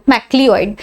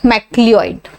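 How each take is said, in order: The two takes are said the same way.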